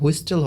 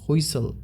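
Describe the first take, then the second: First: A t sound is heard in the middle. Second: No t sound is heard in the middle. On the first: The speaker calls it wrong. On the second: The speaker calls it right.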